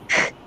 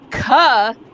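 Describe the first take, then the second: First: The k is said alone without a vowel. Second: The k is followed by a vowel sound. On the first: It is the pure consonant sound. The speaker calls it right. "if I just say k, ... limiting the vowel aspect" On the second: It carries loudly across a room. The speaker calls it wrong. "I can say ka, and everyone for three miles can hear me"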